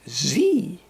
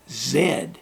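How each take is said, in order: First: The letter is said the American way. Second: The letter is said the Canadian way. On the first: "in the U S, they say it as Z" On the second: "In Canada, the last letter in our alphabet we pronounce as Z"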